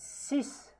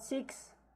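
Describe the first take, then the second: First: The x is said as s. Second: The x is not said as s. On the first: The speaker calls it right. "Here we pronounce it as S" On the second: The speaker calls it wrong. "It's not six"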